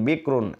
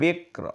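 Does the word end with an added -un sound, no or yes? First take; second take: yes; no. First: The word ends with an -un sound. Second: The word stops sharply on the r sound. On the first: The reading continues without stopping. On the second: The reader stops at this word.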